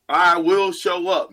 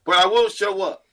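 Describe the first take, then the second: First: "I" hit hard and slow, then falling; stress on I. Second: "will" pushed and falling; stress on will. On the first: Host promising listeners, "I" stressed slowly. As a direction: lean on "I", slowly. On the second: Host repeating his promise, "will" stressed. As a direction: put the weight on "will". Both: Acted.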